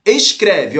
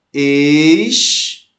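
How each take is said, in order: First: Said in the usual way. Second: "Escreve" drawn out as es... cre... ve, with long pauses; syllable by syllable. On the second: Shown as a demonstration. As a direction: stretch the first syllable of "Escreve" on a rising tone, pause, then give the rest. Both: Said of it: "vamos fazer a escansão dele".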